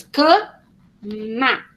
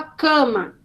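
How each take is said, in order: First: CAMA broken into two slow beats, ca... ma; split into syllables. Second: Said in the usual way. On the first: Shown as a demonstration. Teacher showing a child the two syllables, split into syllables. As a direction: say "cama" syllable by syllable with a clear gap. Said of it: "tem que saber que tem duas sílabas". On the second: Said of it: "a palavra cama".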